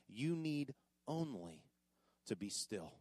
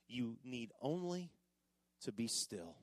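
First: Slow and soft, even quieter; slow hushed emphasis; slower hushed repeat. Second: Softer and lower, hushed; quiet stillness. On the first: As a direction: lean in and whisper the promise. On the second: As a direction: let it settle gently. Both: Shown as a demonstration. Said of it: "Look at that last line".

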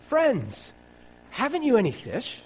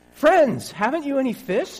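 First: High, carrying call across the water. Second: High, loud hail across the water; calling out loudly. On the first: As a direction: call out to the boat from the shore. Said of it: "And he called out to them". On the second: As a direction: shout out to the fishermen from the beach. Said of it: "Jesus called out". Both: Acted.

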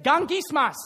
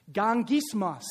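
First: Gangismos called louder for all to repeat as GAHNG-gis-mos; Greek word called out. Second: Gangismos said slowly and clearly as GAHNG-gis-mos; Greek word pronounced. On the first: Pastor leading the church in repeating Gangismos, louder. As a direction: lead the room in saying Gangismos. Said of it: "Say it". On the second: Pastor teaching the congregation a Greek word, careful pronunciation. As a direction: model Gangismos for the room to repeat. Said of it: "You want me to pronounce it for you". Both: Shown as a demonstration.

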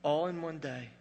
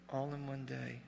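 First: Said in the usual way. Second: The same words repeated much softer; quiet, awed echo. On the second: Shown as a demonstration. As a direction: let the repeat drop to a hush.

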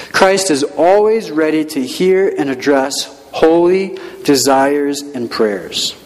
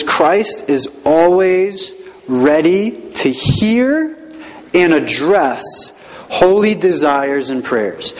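First: Said in the usual way. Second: Very slow, drawn-out reading for note-taking; slow dictation. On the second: Shown as a demonstration. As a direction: dictate it word by word. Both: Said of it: "It says".

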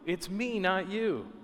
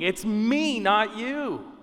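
First: Hushed echo of God's cry; softer, restrained imitation of a cry; retold scream, softened. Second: Raised, insistent voice of God, short of a scream; emphatic retold cry; mild mock scream. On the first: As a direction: repeat God's cry softly, pulling the volume back. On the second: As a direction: imitate God crying out, higher but restrained. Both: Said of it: "God is screaming".

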